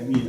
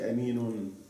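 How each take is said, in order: First: The word ends bare, without a final -un. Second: The word ends with an added -un sound. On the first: The reciter pauses on this word. The speaker calls it right. "But I stop on it, so I say Amin" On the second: The word runs on into what follows. The speaker calls it wrong. "I didn't say Aminun"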